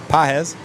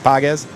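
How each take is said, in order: First: The g in the name is silent. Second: The g in the name is sounded. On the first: The speaker calls it right. "a silent G" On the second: The speaker calls it wrong. "not Pages"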